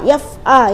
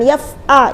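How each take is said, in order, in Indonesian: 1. Suku katanya menyambung dengan halus. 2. Suku katanya terpisah, tidak menyambung. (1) "Jadi harus nyambung, tidak ada yang terputus"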